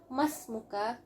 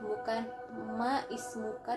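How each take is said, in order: First: The i sound is dropped, linking into 'masmuka'. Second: The i sound of 'ismuka' is pronounced separately. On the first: The speaker calls it right. "jadi hilang kata-kata i, jadi langsung mas" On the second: The speaker calls it wrong.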